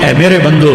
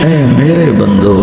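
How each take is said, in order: First: It is said in a plain, unaffectionate tone. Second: It is said in a warm, tender tone. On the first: The speaker calls it wrong. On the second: The speaker calls it right.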